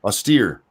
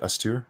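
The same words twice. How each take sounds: First: Austere said as "aw-STEER", settled, falling; corrected pronunciation. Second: Austere said as "ah-STOO-er", unsure, rising like a question; unsure pronunciation. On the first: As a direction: repeat Austere as "aw-STEER" with confidence. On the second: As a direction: try Austere as "ah-STOO-er" with a doubtful rise. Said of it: "Is that how you say it?". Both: Shown as a demonstration.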